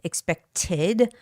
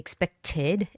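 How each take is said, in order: The two takes are said the same way.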